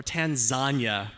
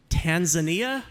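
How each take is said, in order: First: Tanzania as three syllables, tan-ZAN-yuh; tan-ZAN-yuh pronunciation. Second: Tanzania as four syllables, Tan-zuh-NEE-uh; Tan-zuh-NEE-uh pronunciation. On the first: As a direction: say Tanzania slowly with a falling ZAN-yuh ending. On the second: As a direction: say Tanzania with a NEE-uh ending, rising like a question. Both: Shown as a demonstration. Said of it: "I've heard both pronunciations".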